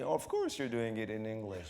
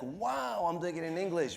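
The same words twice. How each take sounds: First: Blasé. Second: Amazed. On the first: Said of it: "it's gonna be". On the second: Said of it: "For me, it's like". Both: Retold or imitated.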